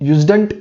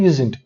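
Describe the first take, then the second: First: A d sound is pronounced before the ending. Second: The d sound before the ending is dropped. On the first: The speaker calls it wrong. "यूजडंट नहीं बोलना है" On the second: The speaker calls it right. "इसको pronounce करना है यूजेंट"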